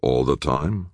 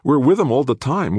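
First: Time with a rising questioning tune; skeptical echo. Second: Firmly, we're with him all the time; insistent counter. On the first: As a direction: throw her words back as a doubt. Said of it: "Walt challenged". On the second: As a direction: stress on him, falling tune. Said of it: "Rachel countered". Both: A narrator's reading.

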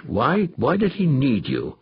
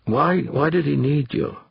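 First: Slower, pressing repeat of the question; insisting. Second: Said in the usual way. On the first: Acted. Danvers presses Molina again, slow and insistent. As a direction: lean on it, refusing to let it drop. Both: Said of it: "Danvers insisted".

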